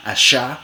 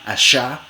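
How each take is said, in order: First: The consonant is a voiceless 'sh' fricative. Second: The same.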